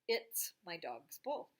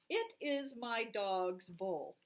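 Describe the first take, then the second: First: It is shortened into one syllable, it's. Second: It is said as two separate words.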